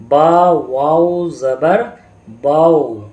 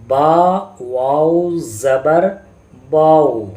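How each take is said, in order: No difference in how they are said.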